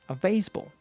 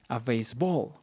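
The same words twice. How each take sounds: First: The stress is on the first part, base. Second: The stress is on the second part, ball. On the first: The speaker calls it right. "the emphasis is going to be on the first word" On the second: The speaker calls it wrong. "we don't say a baseball"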